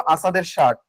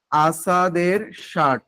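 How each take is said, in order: First: Said in the usual way. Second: "আসাদের shirt" drawn out at half speed; slow dictation. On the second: Shown as a demonstration. Teacher giving students the poem title to write, slow dictation. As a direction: stretch the title syllable by syllable. এটা একটু লিখে নেন.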